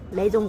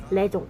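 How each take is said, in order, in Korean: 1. l 소리가 나고 jun으로 끝나게 발음합니다. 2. l 소리가 나고 jun으로 끝나게 발음합니다.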